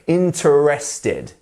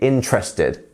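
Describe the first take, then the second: First: The E after the first syllable is clearly sounded. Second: The E after the first syllable is dropped. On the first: The speaker calls it wrong. "a tricky little E, which maybe quite often people want to pronounce" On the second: The speaker calls it right. "we would not even pronounce this E"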